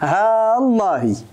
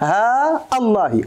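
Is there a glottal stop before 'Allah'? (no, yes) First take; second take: no; yes. First: A long vowel running straight into Allah, no stop. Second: A long vowel, then a glottal stop before Allah. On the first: "بالمد دون القطع ... الهمزة تبقى همزة توصولي" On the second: "بالمد والقطع ... والهمزة ديال الله سأقطعها"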